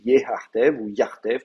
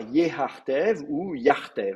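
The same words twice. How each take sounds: First: Yehartev then yartev, each said slowly and distinctly; slow teaching demo of yehartev and yartev; two forms spelled out slowly. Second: Said in the usual way. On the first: Shown as a demonstration. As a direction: lay out yehartev and yartev slowly, one after the other. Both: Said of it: "c'est les deux possibilités".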